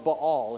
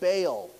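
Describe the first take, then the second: First: The name is said with a Hebrew pronunciation. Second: The name is said with an English pronunciation. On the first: "if you say it in the Hebrew" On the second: "We say Baal"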